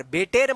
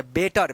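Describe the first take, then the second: First: बेटेर said with a full e in the second syllable; बेटेर, the mistaken e-ending version; wrong pronunciation. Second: बेटर said with a short a-sound, बे-टर; बेटर with the a-like vowel at the end; correct pronunciation. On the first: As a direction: demo the wrong बेटेर with a clear e. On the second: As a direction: say बेटर as बे-टर, not बेटेर. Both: Shown as a demonstration. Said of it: "बेटेर मत पढ़ना".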